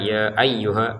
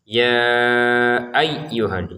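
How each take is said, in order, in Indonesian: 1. Bunyi y yang bertasydid hanya ditekan lemah. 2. Bunyi y yang bertasydid ditekan keras. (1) "jangan sekedar ya ayyuha, ayyuha kan kurang tekanannya" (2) "huruf ya-nya kita tekan"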